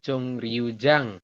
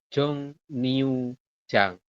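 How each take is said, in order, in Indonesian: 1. Suku kata kedua diawali bunyi R. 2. Suku kata kedua diawali bunyi N. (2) "tapi dibacanya adalah"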